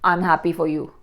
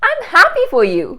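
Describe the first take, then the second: First: It is said flatly, without any happiness. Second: It is said warmly, sounding genuinely happy. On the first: The speaker is not convincing. The speaker calls it wrong. "your delivery doesn't even show it" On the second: The speaker is believable. The speaker calls it right. "Now that's more believable"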